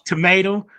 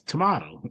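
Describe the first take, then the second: First: It is said with an American pronunciation. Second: It is said with a non-American pronunciation. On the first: "we pronounce tomato" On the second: "some pronounce tomato"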